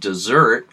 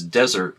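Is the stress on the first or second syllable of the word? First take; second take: second; first. First: The stress is on the second syllable. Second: The stress is on the first syllable. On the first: This is the traditional local pronunciation. "traditionally pronounced dessert, like the last course of a meal" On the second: This is the more common modern pronunciation. "more commonly pronounced these days as desert, like the Sahara"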